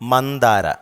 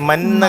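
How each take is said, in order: First: The d sound after the n is clearly heard. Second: The d sound is dropped, sounding like manna. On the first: The speaker calls it right. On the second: The speaker calls it wrong.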